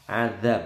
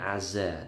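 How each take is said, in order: First: The middle consonant is a soft 'dh' sound. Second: The middle consonant is a plain 'z' sound. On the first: The speaker calls it right. "Adzab bukan azza" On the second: The speaker calls it wrong. "bukan azza, hati-hati"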